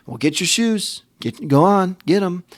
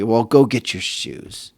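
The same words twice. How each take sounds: First: Higher, reluctant, impatient urging; grudging. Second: Said in the usual way. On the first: Retold or imitated. Annoyed dad telling son to get his shoes, grudgingly. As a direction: hurry the kid along without joy. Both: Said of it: "I don't even say that happily".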